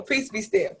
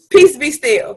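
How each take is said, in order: First: Peace said softer, settling; soft calming repeat; quieter peace be still. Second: Peace said loud and firm; proclaimed louder the first time; louder peace be still. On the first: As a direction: let it drop softer. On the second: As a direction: call it out louder. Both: Shown as a demonstration.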